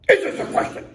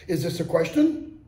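First: The voice falls at the end. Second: The voice rises at the end. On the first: The speaker is exclaiming, not asking. "That's more of an exclamation" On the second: The speaker is asking a question. "Your voice rises at the end"

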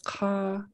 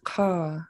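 First: The vowel is long and stays high. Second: The vowel starts high and falls low. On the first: This is the Northern dialect form. "it's a long high A" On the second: This is the Sanya and Hinya Kwan dialect form. "where it goes high and then low"

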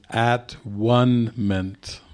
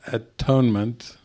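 First: It is split into separate parts. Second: It is said smoothly as one word. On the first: It means oneness. "It is at-one-ment" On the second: It means correction. "It is not atonement"

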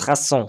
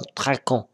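First: The middle consonant is an s sound. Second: The middle consonant is a k sound. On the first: The speaker calls it right. "on prononce rasson" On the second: The speaker calls it wrong. "c'est pas tracon"

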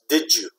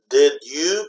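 First: The d and y blend into a j sound. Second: The d and y are said separately. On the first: "when you say it fast, ... like a J sound" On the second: "When you say slowly"

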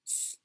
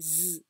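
First: The sound is whispered without voice. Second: The sound is spoken with full voice. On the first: "Now whisper Z" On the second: "the voiced sound is Z"

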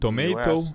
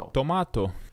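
First: The word is said with an American accent. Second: The word is said with a South African accent. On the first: "da forma americana" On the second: "no inglês sul-africano... eles pronunciavam"

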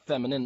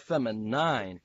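First: The last syllable is a short 'nin'. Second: The last syllable sounds like 'nine'. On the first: The speaker calls it wrong. "they try to just throw you off by saying feminine" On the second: The speaker calls it right. "anytime there's an E at the end, you always pronounce it that way"

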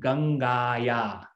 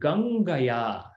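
First: The vowel before 'ya' is long. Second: The vowel before 'ya' is short. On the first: The speaker calls it wrong. "It is not Gangaya. That would be wrong" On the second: The speaker calls it right. "A is shortened"

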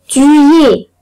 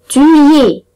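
No difference in how they are said.

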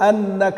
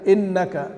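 First: The first vowel of the word is 'a'. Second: The first vowel of the word is 'i'. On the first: "بفتح الهمزة" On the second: "بكسرها"

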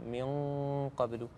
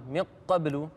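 First: The n sound is a loose nasal hum. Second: The n sound is fully closed before the q. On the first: The speaker calls it right. "الغنه فيها تراخي تخرج من الخيشوم" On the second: The speaker calls it wrong. "يغلق المخرج تماما"

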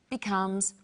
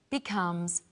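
No difference in how they are said.

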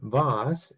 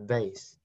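First: It is said with a British pronunciation. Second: It is said with an American pronunciation. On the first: "in British English, they call it vase" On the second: "in American English, they call it vase"

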